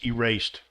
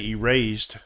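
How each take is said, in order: First: The ending sounds like a T. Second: The ending sounds like a D. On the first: The speaker calls it right. "but it's erased" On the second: The speaker calls it wrong. "this would be a D sound"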